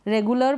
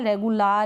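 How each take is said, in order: First: The last syllable has a short reduced 'uh' vowel. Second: The last syllable has a long full 'aa' vowel. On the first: The speaker calls it right. "इसको रेगुलर अ पढ़ रहे हैं" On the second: The speaker calls it wrong. "रेगुलार या ऐसे नहीं पढ़ रहे हैं हम"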